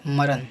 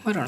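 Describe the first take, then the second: First: मरण ending in plain N, "maran"; wrong dental N. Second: मरण ending in curled-tongue ṇ; correct retroflex N. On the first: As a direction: say मरण with N on the teeth. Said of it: "मरण नहीं होता है". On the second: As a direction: curl the tongue for the last sound of मरण. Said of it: "मरण होता है". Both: Shown as a demonstration.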